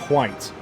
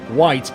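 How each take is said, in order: First: It starts with a breathy h before w. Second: It starts with a plain w sound.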